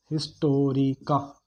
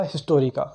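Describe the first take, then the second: First: Historica spoken slowly, syllable by syllable; slow dictation. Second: Said in the usual way. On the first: Shown as a demonstration. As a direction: spell out Historica by sound for note-takers, with small gaps. पूछकर नाम धीरे दोहराना. (Historica को धीरे-धीरे, अक्षर तोड़कर बोलना)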